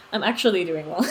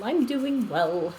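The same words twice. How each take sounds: First: I'm actually doing well through a real laugh. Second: I'm doing well, stretched slowly; slow and drawn out. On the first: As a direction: laugh while reassuring them. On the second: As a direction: ease it out slowly, word by word. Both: Real, not acted. Answering chat, two takes.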